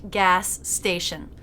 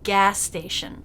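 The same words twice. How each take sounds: First: Two separate S sounds are said between the words. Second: One S sound joins the two words. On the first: The speaker calls it wrong. "with two separate S's" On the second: The speaker calls it right. "one S connecting the two words"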